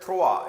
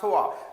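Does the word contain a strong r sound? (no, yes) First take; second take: yes; no. First: The word is said with an r sound. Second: The word is said without an r sound. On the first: The speaker calls it wrong. "Some people say that thwa. It's not a thwa" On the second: The speaker calls it right. "Don't give sound of r in this"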